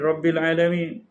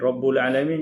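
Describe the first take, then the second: First: The first word ends with an i vowel. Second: The first word ends with an u vowel. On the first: "jadi Rabbil Alamin" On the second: "Rabbul Alamin jadi"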